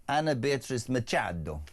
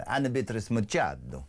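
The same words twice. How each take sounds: First: Said in the usual way. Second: A Brazilian Portuguese lilt on the name; Brazilian accent. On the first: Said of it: "I'm not gonna try and say her name". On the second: Shown as a demonstration. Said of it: "That was very good".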